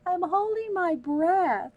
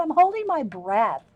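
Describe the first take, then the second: First: Slow, high, insistent I'm holding my breath; slow emphatic repeat. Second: Said in the usual way. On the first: Retold or imitated. Retelling her answer to her husband, slower and higher insistence. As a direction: repeat it slowly and pointedly. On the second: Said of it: "I said".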